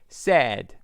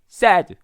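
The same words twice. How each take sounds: First: The vowel is somewhat drawn out. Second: The vowel is short and clipped. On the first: The speaker calls it right. "약간 긴 느낌이 있습니다" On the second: The speaker calls it wrong. "짧진 sad 이렇게 발음하지 않고요"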